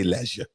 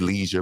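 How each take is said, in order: First: It is said with a British pronunciation. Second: It is said with an American pronunciation.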